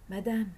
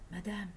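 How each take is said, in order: First: Stammered. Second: A faint, soft, frightened "Madame"; stammered. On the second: Hiding from the gang, softly stammering "Madame" at the door. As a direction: barely get "Madame" out from hiding. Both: A narrator's reading. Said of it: "balbutia Sadjini de sa cachette".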